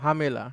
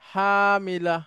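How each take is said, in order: First: The word is said in casual, everyday pronunciation. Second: The word is said in careful, formal pronunciation. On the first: "বলার সময় বলা হবে হামেলা" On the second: "আমি শুদ্ধ উচ্চারণ করলাম"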